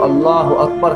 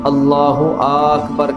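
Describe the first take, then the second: First: No vowel is drawn out. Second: The opening vowel of Akbar is drawn out. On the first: The speaker calls it right. "अल्लाह अकबर कहने की बजाय" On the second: The speaker calls it wrong. "यानी हमज़ा को खींच देते हैं"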